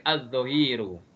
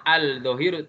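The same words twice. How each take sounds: First: "az-zohiru" with no L, doubled z; correct assimilated reading. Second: "al-zohiru" with a clear, separate L; wrong reading, L pronounced. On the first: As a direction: run A straight into z in "az-zohiru". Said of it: "tidak, tapi". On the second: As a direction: sound out the L in "al-zohiru". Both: Shown as a demonstration.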